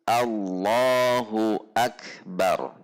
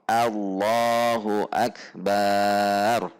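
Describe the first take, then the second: First: The vowel after b is short. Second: The vowel after b is long. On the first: The speaker calls it right. "yang betul adalah yang atas" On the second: The speaker calls it wrong. "ba-nya panjang, maka itu tidak diperbolehkan"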